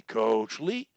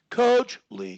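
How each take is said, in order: First: Lower register. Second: Out of his register. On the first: Coach shows the stutterer a low register, pitched down. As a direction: sink Coach Lee below your usual pitch. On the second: Coach shows a stutterer a higher register, pitched up. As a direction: Coach Lee pitched much higher and a bit louder. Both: Shown as a demonstration. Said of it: "When I come out of my voice register".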